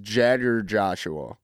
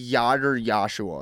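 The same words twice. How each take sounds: First: "Jagger Joshua" with a hard J, JAG-er; "Jagger" starting with a J like jam; corrected name. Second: "Yager" said as YAH-ger, a Y instead of J; mispronounced name. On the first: Shown as a demonstration. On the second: Retold or imitated. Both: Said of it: "It's Jagger Joshua".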